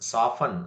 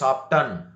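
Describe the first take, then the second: First: The t sound is silent. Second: The t sound is pronounced. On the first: The speaker calls it right. "We have to ಪ್ರನೌನ್ಸ್ ಸಾಫನ್" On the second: The speaker calls it wrong. "Don't say ಸಾಫ್ಟನ್"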